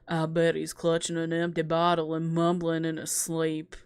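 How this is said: The line is read in a sexy voice.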